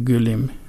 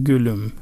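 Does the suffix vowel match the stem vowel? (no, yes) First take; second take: no; yes. First: The suffix vowel differs from the stem vowel. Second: The suffix vowel matches the stem vowel. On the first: The speaker calls it wrong. "گل نمیگن گلم" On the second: The speaker calls it right. "میگن گلم ... ادامه همون او رو ادامه داده"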